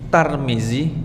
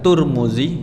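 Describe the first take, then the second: First: The first syllable is pronounced tar. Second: The first syllable is pronounced tur. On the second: "Ada tur"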